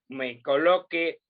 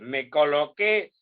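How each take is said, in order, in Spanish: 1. El acento cae en la penúltima sílaba. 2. El acento cae en la última sílaba. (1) "no voy a decir" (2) "si yo digo"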